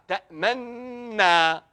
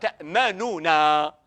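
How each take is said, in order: First: No u vowel is heard before the final na. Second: A u vowel is heard before the final na. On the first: "Il n'y a pas de Dhamma"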